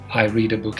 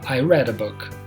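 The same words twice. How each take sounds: First: Read is pronounced as the present-tense form. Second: Read is pronounced as the past-tense form. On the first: It happens habitually. "So you say I read a book every day" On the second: It happened in the past. "but when you say yesterday or last weekend"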